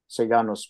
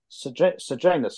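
First: The name is said with Latin pronunciation. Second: The name is said with English pronunciation. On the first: The speaker calls it right. "probably is more correct in Latin" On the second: The speaker calls it wrong. "if I use the English pronunciation"

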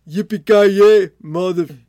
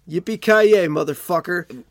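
First: It is said in a heavy Austrian accent. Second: It is said in a plain American accent. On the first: "I could see Arnold Schwarzenegger in the room" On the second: "Maybe that's what Bruce Willis did"

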